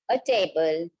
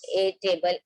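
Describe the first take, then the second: First: The article is said as a short 'uh' sound. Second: The article is said as a full 'ay' sound. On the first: The speaker calls it right. "We are pronouncing it as Marathi A" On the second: The speaker calls it wrong. "I'm not telling you a book, a table, a clock. This is the wrong pattern of English"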